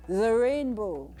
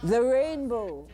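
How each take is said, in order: Both takes have the same delivery.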